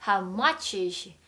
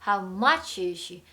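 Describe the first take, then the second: Both takes have the same delivery.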